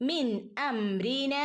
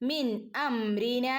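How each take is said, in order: No difference in how they are said.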